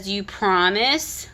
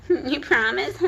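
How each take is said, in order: First: Said in the usual way. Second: Higher, mocking little-girl plea; creepy mocking voice. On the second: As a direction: repeat it as a creepy whiny plea. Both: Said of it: "How creepy".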